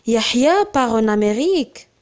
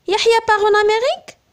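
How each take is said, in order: First: Surprised exclamation. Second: Amérique rising at the end, higher and faster; uptalk. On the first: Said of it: "On exprime une émotion, un étonnement". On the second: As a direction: lift the final word Amérique into a question. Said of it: "intonation montante en fin de phrase". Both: Shown as a demonstration.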